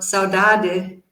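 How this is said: It is said with a European Portuguese accent. "in European Portuguese pronunciation"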